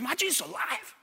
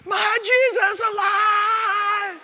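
First: It is said quietly, as a question. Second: It is screamed loudly, as an exclamation.

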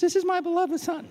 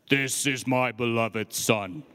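First: The voice is high and not deep. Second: The voice is low and deep. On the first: The speaker calls it wrong. "He doesn't speak like this" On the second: The speaker calls it right. "God's got to speak with a deep voice"

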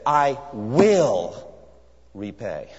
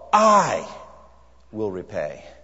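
First: The stress is on "will". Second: The stress is on "I".

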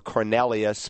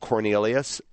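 First: The name is pronounced the original, non-American way. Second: The name is pronounced the usual American way. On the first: "more technically, phonetically true" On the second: "in America, we call him Cornelius"

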